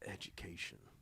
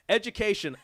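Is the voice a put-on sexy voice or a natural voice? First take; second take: put-on sexy; natural. First: It is said in a put-on sultry voice. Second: It is said in a natural everyday voice. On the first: The speaker calls it wrong. "I'll try to sound sexy" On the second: The speaker calls it right. "do your own voice"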